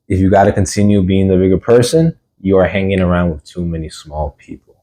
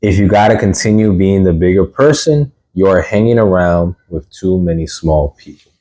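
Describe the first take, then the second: First: It is read at a normal, quicker pace. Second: It is read at a slower pace.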